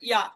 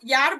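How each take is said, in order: First: The final r is barely heard. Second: The final r is clearly pronounced. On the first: "র একটু খুবই কম করে বলে" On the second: "প্রথম অবস্থাতে ইয়ার বলবেন"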